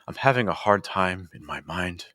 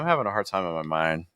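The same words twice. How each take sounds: First: It is read in a dramatic, stylized poetry voice. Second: It is read casually, like everyday conversation.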